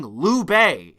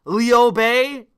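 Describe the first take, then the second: First: "Liu" said as "Lu" in one vowel, with "Bei" as "pay"; "Liu" flattened to a single "oo" sound; Lu Bei pronunciation. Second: "Liu" said in two parts as "lee-oh", with "Bei" as "pay"; "Liu" stretched into "lee-oh", trying out the chat's version; Lee-oh Bei pronunciation. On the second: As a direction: say "Liu" as "lee-oh" with a questioning lilt. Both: Shown as a demonstration. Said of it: "Liu Bei instead of Liu Bei".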